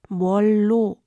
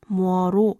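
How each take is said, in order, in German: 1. Das Wort wird mit einem doppelten l-Laut gesprochen. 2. Das Wort wird mit einem einfachen r gesprochen, kein l. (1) "wird aber in der Umgangssprache oft ... als mollo ausgesprochen" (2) "Eigentlich lautet diese Zusammensetzung grammatisch korrekt moro"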